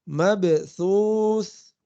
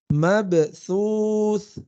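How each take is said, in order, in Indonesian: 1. Konsonan di tengah adalah bunyi th yang lembut. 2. Konsonan di tengah adalah bunyi th yang lembut.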